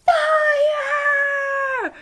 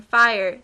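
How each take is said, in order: First: High, loud panicked scream; full retold panic shriek. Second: Retold scream. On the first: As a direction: yell fire at the top of your lungs. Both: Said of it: "burst out of the elevator screaming".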